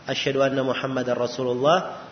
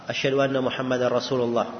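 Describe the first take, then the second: The two takes are said the same way.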